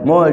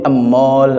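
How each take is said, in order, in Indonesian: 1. Kata ini langsung diawali dengan bunyi m. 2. Vokal tambahan ditambahkan sebelum m.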